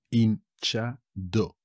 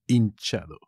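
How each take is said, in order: First: Slow "Hinchado", pause between syllables; teacher's slow, split-up "Hinchado". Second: Said in the usual way. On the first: Shown as a demonstration. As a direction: break "Hinchado" into three separate beats. Word repeated split up for learners.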